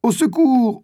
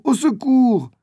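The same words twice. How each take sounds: First: High, desperate shout for help; a boy pinned by a jaguar, screaming for help; cry for help. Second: High, desperate repeated shout; the same boy still screaming for help under the claws; cry for help. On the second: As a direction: call out again in panic. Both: A narrator's reading. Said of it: "Il entend quelqu'un crier".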